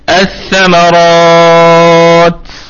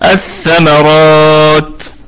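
First: The long vowel is held for six counts. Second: The long vowel is held for four counts.

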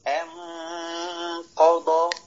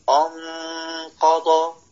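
First: Light first vowel, rising into a heavy nasal. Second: Heavy first vowel before the nasal sound. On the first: The speaker calls it right. "ترقيق ثم تفخيم" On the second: The speaker calls it wrong. "يفخم الحرف الذي قبل النون الساكنة"

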